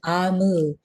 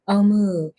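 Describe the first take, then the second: First: The name begins with an 'ah' vowel. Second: The name begins with an 'oh' vowel. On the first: The speaker calls it right. "I'm going to correct my pronunciation" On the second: The speaker calls it wrong. "I'm going to correct my pronunciation"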